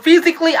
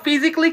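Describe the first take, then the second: First: ফিজিক্যালি with a full "ka-li" ending; four full syllables in ফিজিক্যালি; wrong pronunciation. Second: ফিজিক্যালি shortened to "fi-zi-kli"; no "ka" vowel in ফিজিক্যালি; correct pronunciation. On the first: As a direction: say ফিজিক্যালি as "fi-zi-kaa-li". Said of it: "বলবেন না, আজকের পর থেকে". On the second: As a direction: say ফিজিক্যালি with a quick "-kli" ending. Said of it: "আজকের পর থেকে বলবেন". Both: Shown as a demonstration.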